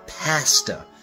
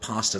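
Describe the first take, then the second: First: It is said in a Chicago accent. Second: It is said in a standard accent.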